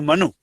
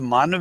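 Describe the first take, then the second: First: The word ends with an added u vowel. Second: The word ends on a consonant, no final vowel. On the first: The speaker calls it wrong. "it has been propagated as a Manu" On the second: The speaker calls it right. "The word is Man with an onkad"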